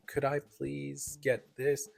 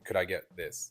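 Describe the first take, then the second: First: It is said slowly and clearly. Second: It is said quickly.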